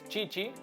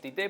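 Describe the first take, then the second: First: The name is said with Portuguese pronunciation. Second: The name is said with Spanish pronunciation. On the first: The speaker calls it right. "como dirían en portugués" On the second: The speaker calls it wrong. "en español le decimos Tite, pero no está bien pronunciado"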